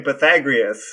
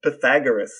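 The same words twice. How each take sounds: First: "Pythagoras" mimicked as pa-THAG-ree-us, the host's wrong version; "Pythagoras" with the added "ree" sound, copied to show the error; imitating the mistake. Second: "Pythagoras" as pa-THAG-er-us, stress on THAG, ending "-er-us"; "Pythagoras" said right: pa-THAG-er-us; correct pronunciation. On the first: Brother copies the host's "Pythagoras" as pa-THAG-ree-us. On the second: Shown as a demonstration. Brother corrects the host: "Pythagoras" as pa-THAG-er-us. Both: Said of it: "You're saying Pythagoras".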